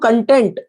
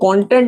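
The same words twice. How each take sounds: First: The stress is on the second syllable. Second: The stress is on the first syllable. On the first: It means satisfied. "इसका मतलब संतुष्ट हो जाएगा" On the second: It means the material or subject matter. "Content मतलब वहां का जो विषय सूची"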